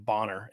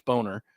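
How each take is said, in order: First: "Bonner" said with a short o, like bonnet; short-o pronunciation. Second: "Boner" said with a long o, like bone; long-o pronunciation. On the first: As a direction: make the first vowel of "Bonner" an "ah". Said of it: "always say it's". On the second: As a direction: make the first vowel of "Boner" an "oh". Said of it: "it's not Bonner". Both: Shown as a demonstration.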